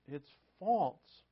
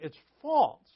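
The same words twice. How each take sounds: First: Said in the usual way. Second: Loud and higher, hammering the word false; emphatic declaration. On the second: Real, not acted. Pastor driving the point home to his congregation, loud emphatic. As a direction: proclaim false like a verdict to the room.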